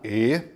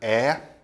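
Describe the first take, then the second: First: The vowel is said with a closed quality. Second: The vowel is said with an open quality. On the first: "o timbre fechado" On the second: "Você tem o timbre aberto da letra"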